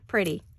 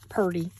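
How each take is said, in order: First: It is said in a plain standard way, like pretty. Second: It is said with a Southern-style drawl, like purty.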